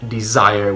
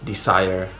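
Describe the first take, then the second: First: The middle consonant is a buzzing Z. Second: The middle consonant is a hissing S.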